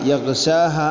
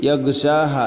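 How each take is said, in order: Both takes have the same delivery.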